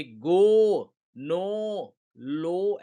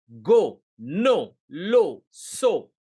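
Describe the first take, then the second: First: गो, नो, लो with a long stretched O; wrongly extended O. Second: गो, नो, लो, सो each a short punchy word with a brief O; unextended O. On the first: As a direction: drag out the O in गो, नो, लो. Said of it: "ऐसा sound नहीं होगा". (गो, नो, लो में "ओ" को लंबा खींचें) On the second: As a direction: cut the O short in गो, नो, लो, सो. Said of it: "वो extended नहीं होगा". (गो, नो, लो, सो में "ओ" छोटा रखें) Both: Shown as a demonstration.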